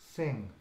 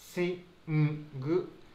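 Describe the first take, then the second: First: The word ends on ng with no vowel. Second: The word ends with an extra vowel after ng. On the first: The speaker calls it right. "シンという形ですね" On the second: The speaker calls it wrong. "大きな母音をつけて発音してしまっている"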